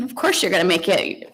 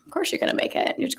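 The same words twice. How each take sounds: First: Said in the usual way. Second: Breathy near-whisper, softer; whispered reassurance; whispered to herself. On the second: Real, not acted. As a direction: hush it as if only to yourself. Repeats it softly to herself.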